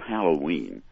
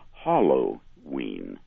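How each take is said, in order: First: The first part is said the usual way. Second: The first part sounds like the word hollow. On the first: The speaker calls it right. "instead of Halloween" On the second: The speaker calls it wrong. "as though it were talking about something that was devoid of content in the middle"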